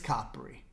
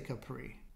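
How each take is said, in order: First: Capri is said the native Italian way. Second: Capri is said the American way. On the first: The speaker calls it right. "it's Capri" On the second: The speaker calls it wrong. "I say Capri, probably because I'm a silly American"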